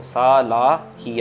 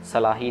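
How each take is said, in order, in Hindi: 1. पहला स्वर लंबा है। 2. पहला स्वर छोटा है। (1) "सालाही आएगा" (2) "सलाही नहीं होगा"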